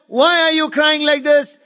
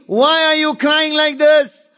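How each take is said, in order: Both takes have the same delivery.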